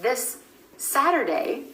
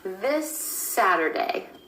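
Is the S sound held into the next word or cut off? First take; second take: cut off; held. First: The final S is cut off before the next word. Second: The final S continues into the next word. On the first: "instead of" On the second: "That final S sound at the end of this is continuing on into the word Saturday"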